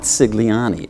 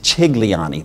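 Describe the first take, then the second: First: The name begins with an s sound. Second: The name begins with a ch sound. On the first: The speaker calls it wrong. "it's not Cigliani" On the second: The speaker calls it right. "That's the correct pronunciation"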